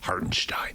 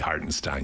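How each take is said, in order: First: The name is said with an exaggerated foreign accent. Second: The name is said in a plain English way. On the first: The speaker calls it right. "you go Hartenstein" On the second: The speaker calls it wrong. "You don't say Hartenstein"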